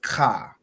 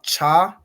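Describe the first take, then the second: First: It begins with a 'k' sound. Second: It begins with a 'ch' sound. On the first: The speaker calls it right. "it's pronounced ka" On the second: The speaker calls it wrong. "It's not cha"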